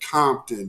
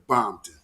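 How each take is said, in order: First: The name begins with a K sound. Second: The name begins with a B sound. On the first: This is how outsiders say the name. "they don't say Compton" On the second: This is how locals who are Bloods say the name. "they say Bompton"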